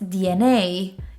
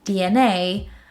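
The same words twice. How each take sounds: Both takes have the same delivery.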